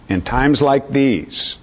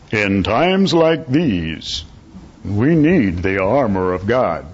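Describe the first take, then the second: First: Said in the usual way. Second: Slow, drawn-out bass-baritone announcer impression; imitated masculine baritone, stretched out grandly; Bronson. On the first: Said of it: "that's a poor substitute". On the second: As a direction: intone it like a deep-voiced program announcer. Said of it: "masculine bass baritone voice of his".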